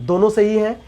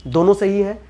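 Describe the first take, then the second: The two takes are said the same way.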